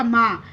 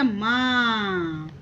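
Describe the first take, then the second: First: माँ said briefly as a simple "maa"; short open vowel. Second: माँ very long and lower, humming in the nose; nasal pronunciation. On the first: Teacher reading it before chandrabindu is added, माँ short and simple. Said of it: "ये क्या हो जाएगा". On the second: Teacher showing what chandrabindu does, माँ stretched and nasal. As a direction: draw माँ right out through the nose. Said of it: "जैसे ही चंद्र बिंदु लगा". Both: Shown as a demonstration.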